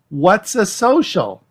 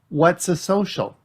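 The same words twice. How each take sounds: First: It is shouted loudly. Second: It is said at normal volume.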